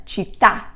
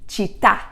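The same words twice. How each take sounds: Both takes have the same delivery.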